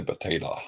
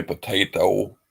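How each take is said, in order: First: "potato" ending in a loose "tuh"; "potato" as puh-TAY-tuh; dialect pronunciation of potato. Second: "potato" ending in a full "toh"; "potato" as po-TAY-toh; pronunciation of potato. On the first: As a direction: let the last o of "potato" relax to "ah". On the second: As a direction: say "potato" with a clear long o at the end. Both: Shown as a demonstration. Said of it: "Some people say potato".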